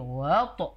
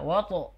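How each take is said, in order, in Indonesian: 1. Bunyi pertama ditekan dan ditarik. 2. Bunyi kedua yang membawa tekanan. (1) "namun justru yang ditekan di wawunya" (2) "Fokusnya di to aja"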